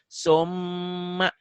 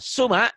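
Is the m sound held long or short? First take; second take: long; short. First: The m is doubled, held and nasal. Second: The m is short and plain. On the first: "Mimnya jadi double. Satu. Kedua ada ditahan, ada panjang" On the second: "Asalnya dibacanya suma"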